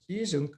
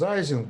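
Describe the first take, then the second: First: The name is said the German way. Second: The name is said the American way. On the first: The speaker calls it right. "since he was German, the right pronunciation is his name is Ising" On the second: The speaker calls it wrong. "Americans pronounce Ising"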